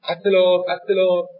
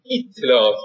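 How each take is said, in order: First: "اطلاعات" starting with an open a; first syllable "at-" in "اطلاعات", as misheard; open first vowel. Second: "اطلاعات" starting with a Turkish-style i; Turkish-style first vowel. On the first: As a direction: say "اطلاعات" as "attelâ'ât". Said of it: "ا میشنیدن". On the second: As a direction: say "اطلاعات" as "ittelâ'ât". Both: Retold or imitated.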